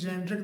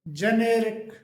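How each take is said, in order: First: The word is said with two syllables. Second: The word is said with three syllables. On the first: The speaker calls it wrong. "इसे ज़्यादातर जेनरिक नाम से जाना जाता है" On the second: The speaker calls it right. "इसका जो सही प्रोनाउंसिएशन होता है वो जेनेरिक"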